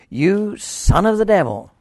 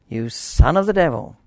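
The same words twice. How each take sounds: The two takes are said the same way.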